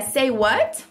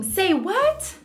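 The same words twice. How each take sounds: First: It is said plainly, without drama. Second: It is said with dramatic, exaggerated indignation.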